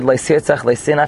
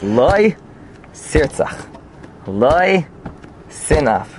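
First: It runs on with no pause after Lo. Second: There is a pause between Lo and sirtzach.

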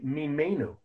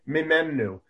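First: The vowel in the middle syllable is a tzere. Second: The vowel in the middle syllable is a segol. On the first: It means than us. "If you want to say greater than us, you say" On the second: It means than him. "If you want to say greater than him, you say, the way we read the word"

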